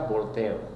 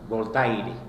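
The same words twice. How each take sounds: First: It is said with French pronunciation. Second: It is read letter by letter, Spanish-style. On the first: "pero se pronuncia" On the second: "se escribe"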